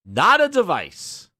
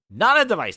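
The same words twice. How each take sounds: First: Slow, louder not a device with each word stressed; emphasized. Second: "Not a device" repeated louder and higher; mocking repeat of "Not a device", punched; emphatic repeat. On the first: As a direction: lean hard on "not a device". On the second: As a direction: hammer "Not a device" home again. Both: Shown as a demonstration. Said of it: "They keep emphasizing".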